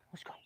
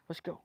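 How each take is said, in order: First: Said in the usual way. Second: Hushed whispered "Let's go"; quiet whispered call to go. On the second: Real, not acted. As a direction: whisper it so nobody wakes. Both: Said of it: "trying to whisper".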